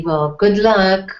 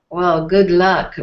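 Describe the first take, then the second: First: Said in the usual way. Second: "Well, good luck" said doubtfully, with a knowing lilt; sarcastic good luck. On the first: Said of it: "depends on your tone of voice". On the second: Shown as a demonstration. Wishing luck on a plan that's sure to fail, sarcastic. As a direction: wish luck you don't believe in. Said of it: "said like, not much chance".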